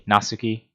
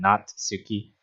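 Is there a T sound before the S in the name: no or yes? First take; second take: no; yes. First: The name has no T sound before the S. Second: The name has a T sound before the S. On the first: The speaker calls it right. "So it would be Nasuki" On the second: The speaker calls it wrong. "because I am adding that extra T sound"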